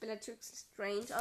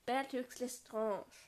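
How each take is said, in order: First: The name is said with a non-French pronunciation. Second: The name is said with a French pronunciation. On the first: The speaker calls it wrong. "eigentlich spricht man sie ja nicht Bellatrix Lestrange aus" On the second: The speaker calls it right. "sondern Bellatrix Lestrange. ... Das ist Französisch"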